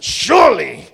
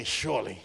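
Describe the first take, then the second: First: "surely" shouted and drawn out; emphatic SURELY. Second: Said in the usual way. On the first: Shown as a demonstration. Preacher driving the promise home, "surely" loud and stretched. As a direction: belt out "surely" with a big falling swoop. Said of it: "It's not just goodness and mercy". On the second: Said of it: "everybody say".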